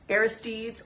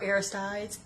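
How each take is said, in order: First: Aristides ending in "teedz", rhyming with "steeds"; pronounced air-iss-TEEDZ. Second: Aristides ending in "tides", like ocean tides; pronounced air-iss-TIDES. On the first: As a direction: say Aristides with a long ee in the last syllable. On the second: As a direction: say Aristides with a long i in the last syllable. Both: Shown as a demonstration. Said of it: "however you wanna pronounce it".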